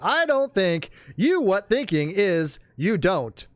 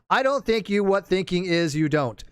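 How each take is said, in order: First: It is said with pauses between parts. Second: It is said straight through without pauses.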